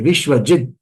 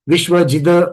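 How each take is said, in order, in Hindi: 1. अंतिम व्यंजन बिना स्वर के छोटा काटकर बोला जाता है। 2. अंतिम d को स्वर के साथ खींचा जाता है। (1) "ऐसा होना चाहिए" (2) "द आगे खींचा मैंने"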